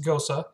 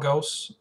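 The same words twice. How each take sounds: First: The word is said in the German way. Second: The word is said in a common Americanized way. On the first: This is how speakers of the language say it. The speaker calls it right. "proper pronunciation is Gose" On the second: This is how many people commonly say it. The speaker calls it wrong. "a lot of people are going to call it Gose"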